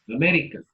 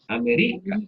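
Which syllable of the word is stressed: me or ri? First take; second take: me; ri. First: The stress falls on the syllable me. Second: The stress falls on the syllable ri. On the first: The speaker calls it right. "estuvimos de acuerdo que está en el me" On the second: The speaker calls it wrong. "se pronunciara con mayor intensidad el ri"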